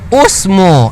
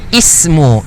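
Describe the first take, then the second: First: The word begins with a u vowel. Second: The word begins with an i vowel. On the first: The speaker calls it wrong. "Kita baca usmu. Ha, salah" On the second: The speaker calls it right. "perkataan ini dibaca ismu"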